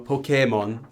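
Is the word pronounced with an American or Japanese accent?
Japanese. The word is pronounced with a Japanese accent. "in Japanese it's Pokemon"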